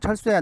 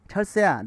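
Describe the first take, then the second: First: It is said without a smile in the voice. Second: It is said with a smile in the voice. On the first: "친구한테 웃지 않고" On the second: "웃으면서 얘기해 보면은"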